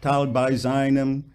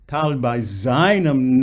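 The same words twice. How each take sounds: First: The first syllable of seinem is not leaned on. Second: The first syllable of seinem is leaned on. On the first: The speaker calls it wrong. "not tal by seinem" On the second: The speaker calls it right. "lean on the sei"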